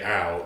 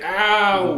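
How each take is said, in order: First: It is a plain, simple cry of pain. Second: It is a drawn-out cry with a blaming tone. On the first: "don't just say ow" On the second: "that's ow with blame attached"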